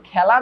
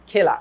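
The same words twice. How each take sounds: First: খেলা said "khæla", open æ vowel. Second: খেলা said "khela", closed e vowel. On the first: Teacher asks students how they pronounce it, open æ in খেলা. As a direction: say খেলা with a wide æ as in "cat". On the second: Teacher offers students the spelt reading, closed e in খেলা. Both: Shown as a demonstration. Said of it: "এটার উচ্চারণ তুমি কি করছো".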